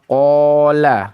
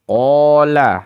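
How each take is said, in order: Both takes have the same delivery.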